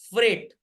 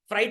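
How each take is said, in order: First: The vowel sounds like 'ay' in 'say'. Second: The vowel sounds like 'eye' in 'night'. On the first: The speaker calls it right. "उससे बोलते हैं बच्चों फ्रेट" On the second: The speaker calls it wrong. "फ्राइट मत बोलिएगा"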